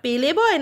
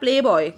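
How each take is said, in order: First: An extra vowel separates the P and L. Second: The P and L are said together, no vowel. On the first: The speaker calls it wrong. "আবার কি বললি পেলে বয়" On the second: The speaker calls it right. "একটু উচ্চারণ টুচ্চারণ ঠিক করে করিস"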